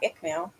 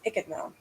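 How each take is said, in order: First: The name is said short, like 'Ickmal'. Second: The name is said longer, like 'Ichidmal'. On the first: The speaker calls it wrong. "Not Ickmal" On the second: The speaker calls it right. "it's Ichidmal"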